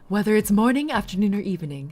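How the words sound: It is said in a put-on character voice.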